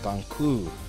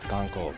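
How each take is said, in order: First: The second syllable ends in an 'oo' vowel. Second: The second syllable ends in an 'oh' vowel. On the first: The speaker calls it right. "so it's Gonku" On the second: The speaker calls it wrong. "I thought it was Gonko"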